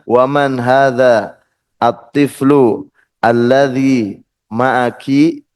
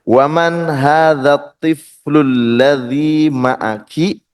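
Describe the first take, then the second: First: Each word is said apart, with its initial vowel. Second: The words run together, dropping the linking glottal sounds. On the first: "kalau dipisah" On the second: "ini nyambung semua"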